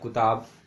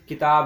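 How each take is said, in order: First: The first vowel is a 'u' sound. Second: The first vowel is an 'i' sound. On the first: The speaker calls it wrong. "पढ़ रहे हैं कुताब" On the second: The speaker calls it right. "ये किताब है"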